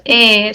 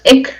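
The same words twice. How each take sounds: First: "e" alone, with no consonant after it; open syllable "e". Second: "ec" cut shut with a k sound; closed syllable "ec". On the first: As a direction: leave "e" open as a syllable by itself. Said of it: "sino es e". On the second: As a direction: close "ec" on the consonant k. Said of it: "por eso no es ec". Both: Shown as a demonstration.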